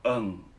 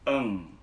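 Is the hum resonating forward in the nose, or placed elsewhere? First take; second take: elsewhere; nasal. First: The hum resonates in another place, not nasal. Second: The hum resonates forward in the nasal bone. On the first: The speaker calls it wrong. "Tapi bukan eng di sini" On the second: The speaker calls it right. "Taruh suara di sini"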